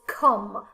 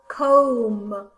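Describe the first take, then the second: First: The vowel is a short 'uh' sound. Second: The vowel is a long 'oh' sound. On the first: The speaker calls it right. "No, it is come" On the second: The speaker calls it wrong. "I do not say, for example, comb"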